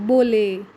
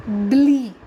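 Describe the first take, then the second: First: Bole said as one syllable like bowl; wrong way, bole. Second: Blee said sharp and loud as a separate syllable; correct ending blee. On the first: Teacher shows class the wrong ending bole. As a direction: mispronounce the ending of hyperbole as bole. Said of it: "You don't say it like bole". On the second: Teacher corrects class, saying the ending Blee. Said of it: "That's the way you pronounce it". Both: Shown as a demonstration.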